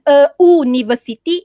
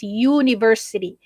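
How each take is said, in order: First: "a university" loudly starting with oo, no y; oo-niversity. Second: "university" starting with a y glide; yoo-niversity. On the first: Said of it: "Bukan a university". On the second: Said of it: "it's university". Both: Shown as a demonstration.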